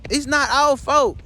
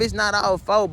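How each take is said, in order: First: Slower, higher, leaning on each word; insistent. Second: Said in the usual way. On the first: Acted. Man pleading to his lost love, slow and insistent. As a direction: press the point that it's not their fault. Insisting it was nobody's fault.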